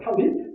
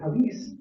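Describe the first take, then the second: First: The word ends with a T sound. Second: The word ends with an S sound.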